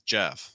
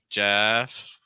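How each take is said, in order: First: The pitch falls at the end. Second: The pitch rises at the end. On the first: The speaker calls it right. "Jeff like falling" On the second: The speaker calls it wrong. "Jeff rising"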